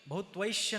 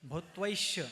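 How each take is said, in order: First: The word ends with a 'shya' sound. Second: The same.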